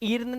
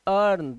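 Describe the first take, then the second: First: The vowel is a long 'ee' sound. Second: The vowel is an 'ur' sound. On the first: The speaker calls it wrong. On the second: The speaker calls it right.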